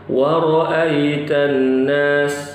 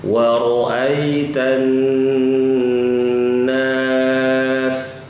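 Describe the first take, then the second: First: The doubled n is cut short. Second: The doubled n is held long and nasal. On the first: The speaker calls it wrong. "Jangan baca wa ra'aitan nas, ini kurang" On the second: The speaker calls it right. "wajib ditahan dua harokat gunnah"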